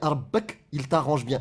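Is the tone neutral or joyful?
neutral. It is said in a plain, neutral tone.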